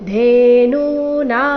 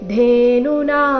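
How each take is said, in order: First: The second syllable has a long vowel. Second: The second syllable has a short vowel. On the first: The speaker calls it right. "ನೂ ನಾ ಎರಡೂ ದೀರ್ಘ" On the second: The speaker calls it wrong. "ಇಲ್ಲಿ ಧೇನುನಾ ಅಂತ ಇಲ್ಲ"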